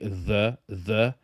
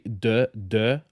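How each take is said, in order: First: The word begins with a th sound. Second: The word begins with a d sound. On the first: The speaker is making an effort. The speaker calls it right. "but I can say the the" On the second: The speaker is not making an effort. The speaker calls it wrong. "if I don't force myself, I would say de de"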